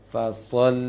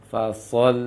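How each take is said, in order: The two takes are said the same way.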